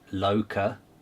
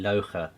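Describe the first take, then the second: First: The middle consonant is a plain k sound. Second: The middle consonant is a harsh throaty kh sound. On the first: This is how an American would say it. "if you're in America, that would be Loca" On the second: This is how an Eastern European would say it. "a K H would be a hard sound"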